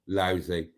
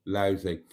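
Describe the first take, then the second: No difference in how they are said.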